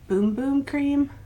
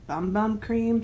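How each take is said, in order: First: The first two words rhyme with 'room'. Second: The first two words rhyme with 'come'. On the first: Some other people say it this way. "I've heard some people pronounce it" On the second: It reads this way as written. "but to me it just says"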